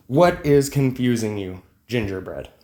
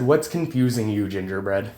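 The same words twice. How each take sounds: First: Slow, each word spelled out, What given weight; slower repeat. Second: Said in the usual way. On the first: Retold or imitated. Retelling his reply to a confused commenter, slow and patient. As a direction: repeat it slowly, as if to a child. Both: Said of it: "and I said".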